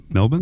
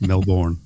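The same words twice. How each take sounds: First: Melbourne as "MEL-bn", second syllable swallowed; local pronunciation. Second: Melbourne with a full "born" ending; wrong pronunciation. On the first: Host approving the local way to say Melbourne, reduced ending. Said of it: "That's not bad". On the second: Host showing the tourist way to say Melbourne, full "born". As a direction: say Melbourne as "mel-BORN", both syllables full. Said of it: "how do you pronounce". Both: Shown as a demonstration.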